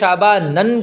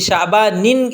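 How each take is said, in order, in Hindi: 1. यह शब्द -an की आवाज़ पर खत्म होता है। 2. यह शब्द -in की आवाज़ पर खत्म होता है। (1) "गैर मुनसरिफ़ पर तनवीन भी नहीं आती, इसलिए इसको शाबानन कहना भी गलत है" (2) "ये शाबानिन इसको कहना गलत है"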